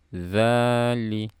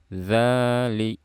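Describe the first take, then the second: No difference in how they are said.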